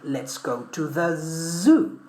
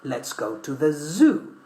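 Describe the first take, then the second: First: The word zoo begins with a buzzing z. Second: The word zoo begins with a buzzing z.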